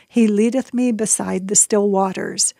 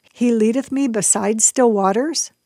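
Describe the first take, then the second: First: Said in the usual way. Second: Lightly imitated toddler sing-song, "still" lifted with a rise; a hint of a little girl's odd recital tune; toddler's sing-song. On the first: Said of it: "weird intonation". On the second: Mother recalling her toddler reciting the psalm, light sing-song. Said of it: "that tiny little baby voice saying".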